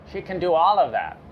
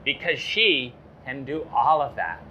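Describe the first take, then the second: First: All punched, louder and faster; emphatic repeat. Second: Said in the usual way. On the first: Shown as a demonstration. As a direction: drive home the word all.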